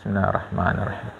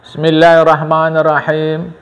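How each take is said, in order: First: The phrase is said softly and quietly. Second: The phrase is said loudly and clearly. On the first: The greeting that follows must be answered. "Tapi kalau pelan, maka tadi selalu saya baca pelan" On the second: The greeting that follows need not be answered. "kalau bismillahnya disampaikan dengan kuat"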